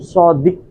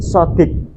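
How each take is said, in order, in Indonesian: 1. Konsonan pertama tebal dan dalam. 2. Konsonan pertama adalah S yang tipis. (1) "bukan sodik" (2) "tapi sodik gitu, yang tipis"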